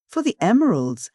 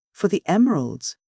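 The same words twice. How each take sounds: First: Higher, mocking repeat of his words; scornful echo. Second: A touch of weak hesitation; mumbled, unsure excuse; weak falter. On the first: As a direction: throw his words back at him with scorn. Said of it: "echoed the lady scornfully". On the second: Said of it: "faltered Hervey weakly". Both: A narrator's reading.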